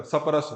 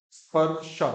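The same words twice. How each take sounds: First: सपरस with vowels between all consonants; Haryanvi mispronunciation. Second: स्पर्श as "sparsha", sp joined; clean conjuncts. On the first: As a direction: say सपरस as "sa-pa-ras", Haryana-style. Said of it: "Haryana का सपरस". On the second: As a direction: start स्पर्श straight on sp, no vowel inside. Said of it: "पहली बार में ठीक बोलो". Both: Shown as a demonstration.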